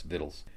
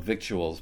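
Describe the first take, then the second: First: "victuals" pronounced VITT-uls, rhyming with skittles; correct pronunciation. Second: "victuals" said as spelled, VIK-choo-uls; spelling pronunciation. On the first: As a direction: say "victuals" as "vittles", with silent c. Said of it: "it's supposed to be pronounced". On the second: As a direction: sound out the c and u in "victuals". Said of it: "It's spelled victuals". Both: Shown as a demonstration.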